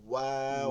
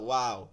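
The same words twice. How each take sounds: First: The lips are rounded for the sound. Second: The lips are spread flat for the sound. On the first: The speaker calls it right. "ঠোঁট গোল করে বলতে হবে ওয়াও" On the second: The speaker calls it wrong. "এটা তো স- চ্যাপ্টা করে ওয়াও"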